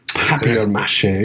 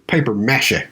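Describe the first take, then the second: First: The first word sounds like French papier. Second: The first word sounds like English paper. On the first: "if I'm going to use the British way of saying it" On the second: "if I was going to say it like a U S citizen"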